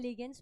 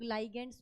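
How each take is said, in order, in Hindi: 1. पहला अक्षर 'lee' जैसा लगता है। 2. पहला अक्षर 'lie' जैसा लगता है। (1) "मैं लीगेंड्स बोलती हूँ" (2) "बहुत सारे लोग लाइगेंड्स बोलते हैं"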